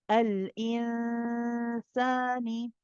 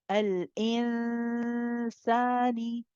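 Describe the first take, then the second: No difference in how they are said.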